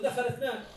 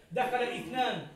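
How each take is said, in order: First: دخل اثنان run together as dakhalithnān; smooth connected دخل اثنان, no stop; linked hamza. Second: دخل اثنان with a cut glottal stop before اثنان; slow, separate the words: دخل then a stopped اثنان; wrong hamza. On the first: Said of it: "نقول". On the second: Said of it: "لا نقول". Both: Shown as a demonstration.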